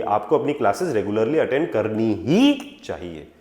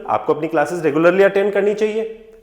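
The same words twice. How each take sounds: First: Low-pitched, with "ही" held long; strong insistence. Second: Said in the usual way. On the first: Acted. Parents telling a student about classes, insisting on "ही". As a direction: stretch "करनी ही" to make it binding. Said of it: "strong आ जाता है".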